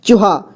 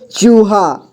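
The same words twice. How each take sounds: First: चूहा with a short clipped ू. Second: चूहा with the ू drawn out long. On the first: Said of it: "यानी कि इसे कम समय पढ़ते". (छोटे ऊ की तरह जल्दी चूहा) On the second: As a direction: stretch the ू of चूहा slowly. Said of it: "तो इसे अधिक समय पढ़ेंगे". (चूहा में बड़ा ऊ खींचकर) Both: Shown as a demonstration.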